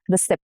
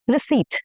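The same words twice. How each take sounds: First: The p sound is pronounced. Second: The p sound is silent. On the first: The speaker calls it wrong. "No, no per" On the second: The speaker calls it right. "Receipt, receipt, and not receipt"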